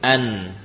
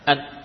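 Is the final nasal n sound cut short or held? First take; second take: held; cut short. First: The nasal n is held for a moment. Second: The nasal n is cut off abruptly. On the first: The speaker calls it right. "suara gunnah tetap ada, ya, dijalankan beberapa saat" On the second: The speaker calls it wrong. "bukan bermakna memutus atau menghilangkan sifat gunnah"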